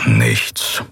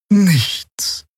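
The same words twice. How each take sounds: First: Much lower, gruff "Nichts" sinking in disappointment; disappointed grumble. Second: Put-on much higher, drawn-out "Nichts" in the old healer's voice; old healer's report. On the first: Acted. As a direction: grumble "Nichts" deep and let down. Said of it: "brummte Keru hörbar enttäuscht". (tiefes, enttäuschtes Brummen bei „Nichts“) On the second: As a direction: let "Nichts" hang high and slow. Xea berichtet. (hohes, langgezogenes „Nichts“ der alten Heilerin)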